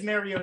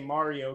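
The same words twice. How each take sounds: First: Mario is said with the Pittsburgh local pronunciation. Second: Mario is said with a non-local, general pronunciation. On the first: This is how locals in Pittsburgh say the name. "it is Mario to people in Pittsburgh" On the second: This is how the name is said in Mario and Luigi. "I say Mario, because that's how I say Mario and Luigi"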